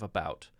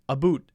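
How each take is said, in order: First: It is said with a standard American vowel. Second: It is said with a Canadian-style vowel.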